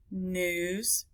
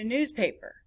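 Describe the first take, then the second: First: Newspaper split into news, pa, per; softer Newspaper with pauses between its three beats; syllable by syllable. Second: Said in the usual way. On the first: Shown as a demonstration. Teacher counting syllables, Newspaper broken up. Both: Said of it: "That's three".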